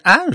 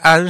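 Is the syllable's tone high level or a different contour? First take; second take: different contour; high level. First: The syllable has a non-level tone. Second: The syllable has a high level tone. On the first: It names a compound written with a different character. "它这个声调不一样" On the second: It names the gas ammonia. "是第一声嘛"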